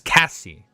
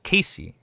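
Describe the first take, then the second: First: The first vowel sounds like the vowel in 'cat'. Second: The first vowel sounds like the vowel in 'case'. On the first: The speaker calls it right. "It's Cassie" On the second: The speaker calls it wrong. "It's not Casey"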